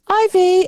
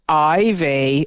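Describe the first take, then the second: First: The name is said in a playful, happy tone. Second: The name is said in a stern, scolding tone.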